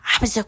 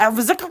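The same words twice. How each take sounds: First: It is said in a soft, lisping voice. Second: It is said in a plain reading voice. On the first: The speaker calls it right. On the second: The speaker calls it wrong.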